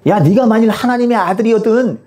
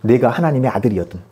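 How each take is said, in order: First: Higher, taunting challenge; mocking jeer. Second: Said in the usual way. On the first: Crowd mocking Jesus on the cross, jeering. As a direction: jeer at him as a crowd would. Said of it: "사람들이 예수님을 조롱하며 뭐라고 그러죠?". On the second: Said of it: "사람들이 예수님을 조롱하며".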